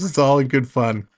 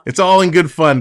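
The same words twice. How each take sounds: First: Said in the usual way. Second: Louder, stressing all; emphatic. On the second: Real, not acted. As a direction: lean on all to reassure. Repeated line to viewer.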